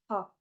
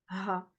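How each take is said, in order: First: It is a light, breathy h with little friction. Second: It is a harsh h from deep in the throat. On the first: "À ne pas confondre avec ha" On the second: "la lettre, elle s'appelle ha"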